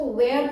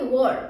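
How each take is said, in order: First: "were" said like "wear", with a long open e; the common student mistake, "were" rhyming with "air"; wrong pronunciation. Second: "were" said as "wor", a short rounded vowel; correct pronunciation. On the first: Teacher shows students the wrong way, "were" said like "wear". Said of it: "that's incorrect". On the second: Teacher gives students the right way, "were" said as "wor". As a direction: model "were" cleanly like "wuh-r". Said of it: "हम लोग क्या बोलते हैं". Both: Shown as a demonstration.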